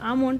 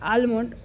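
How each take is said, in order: First: The L sound is left out entirely. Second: The L sound is pronounced before the m. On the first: "আমন্ড আমন্ড বলে" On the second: "আমার এই আলমন্ড বেরিয়ে যায় মুখ দিয়ে"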